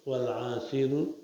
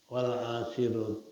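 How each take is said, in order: The two takes are said the same way.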